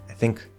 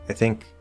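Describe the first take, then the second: No difference in how they are said.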